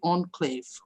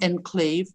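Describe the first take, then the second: First: The word is said with a French pronunciation. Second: The word is said with an English pronunciation. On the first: The speaker calls it right. "it has to be enclave, all right, like French" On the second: The speaker calls it wrong. "not enclave"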